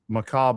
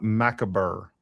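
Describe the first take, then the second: First: The word ends without a hard R sound. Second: The word ends with a hard R sound. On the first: The speaker calls it right. "there's no hard R in macabre" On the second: The speaker calls it wrong. "not macabre"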